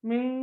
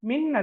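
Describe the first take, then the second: First: The final n is hidden with a nasal hum. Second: The final n is pronounced fully and clearly. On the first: The speaker calls it right. "சுக்கூன் செய்யப்பட்ட நூன் ... மறைத்து ராகம் எடுத்து ஓத வேண்டும்" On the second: The speaker calls it wrong. "மின் அல்ல, மின் என்றோதர் இல்ல"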